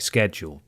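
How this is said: It is said with a North American pronunciation.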